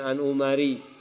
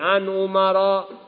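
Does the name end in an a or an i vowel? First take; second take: i; a. First: The name ends with an i vowel. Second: The name ends with an a vowel. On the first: The speaker calls it wrong. "jangan An Umari" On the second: The speaker calls it right. "Jadi jangan salah baca hadis dari An Umara"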